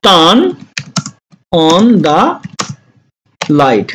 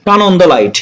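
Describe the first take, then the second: First: Slow dictation, with long gaps between words. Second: Said in the usual way. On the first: Shown as a demonstration. Teacher to students, slow word-by-word dictation. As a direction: spell it out one word at a time. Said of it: "teacher breaks sentence into words". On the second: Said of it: "teacher repeats at normal speed".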